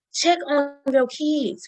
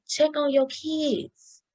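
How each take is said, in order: First: Insistent repeated appeal to parents; slower plea. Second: Earnest slow appeal to parents; slow plea. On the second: Pleading to parents in audience. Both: Real, not acted.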